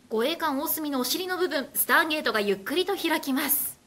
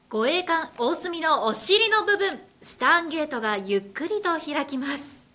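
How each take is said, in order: First: The sentence is read at a faster pace. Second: The sentence is read at a slower pace. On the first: "ちょっと早いパターンもお願いします。" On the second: "こんな感じでどうでしょうか？"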